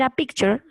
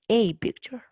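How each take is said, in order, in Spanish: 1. El artículo 'a' se dice de forma simple, sin énfasis. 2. El artículo 'a' se dice con énfasis. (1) "si es algo normal" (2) "si yo le quiero dar importancia"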